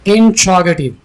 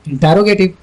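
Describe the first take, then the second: First: No vowel is heard between 'int' and 'r'. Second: A full vowel is heard between 'int' and 'r'. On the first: The speaker calls it right. "Correction कर लीजिए" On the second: The speaker calls it wrong. "ये गलत है"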